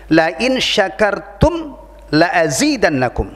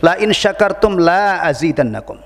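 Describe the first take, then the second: First: The 'la' before azidannakum has a short vowel. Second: The 'la' before azidannakum has a long vowel. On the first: The speaker calls it right. "Jadi harus dibaca pendek" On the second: The speaker calls it wrong. "ada yang tidak tepat, yang tidak baik"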